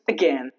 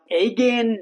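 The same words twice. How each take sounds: First: The first vowel is short and reduced. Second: The first vowel is long and full. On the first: The speaker calls it right. "Just again" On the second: The speaker calls it wrong. "Not again"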